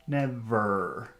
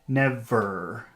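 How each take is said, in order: The two takes are said the same way.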